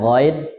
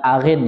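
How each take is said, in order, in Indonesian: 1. Kata itu diawali bunyi gh yang berat di tenggorokan. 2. Kata itu diawali bunyi vokal biasa. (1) "Perhatikan ghain bukan arin ya" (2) "biasanya dibilang arin"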